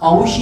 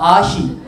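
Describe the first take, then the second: First: The name begins with an 'ow' vowel. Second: The name begins with an 'ah' vowel. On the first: The speaker calls it wrong. "ಔಷಿ ಅಲ್ಲ" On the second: The speaker calls it right.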